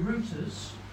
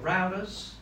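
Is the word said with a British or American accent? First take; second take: British; American. First: It is said in a British accent. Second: It is said in an American accent.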